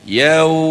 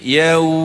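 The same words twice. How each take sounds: The two takes are said the same way.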